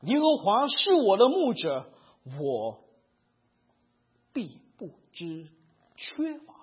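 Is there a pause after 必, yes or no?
yes. It is slower with a pause after 必.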